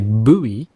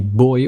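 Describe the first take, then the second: First: It is said boo-ee, American style. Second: It is said like boy, British style.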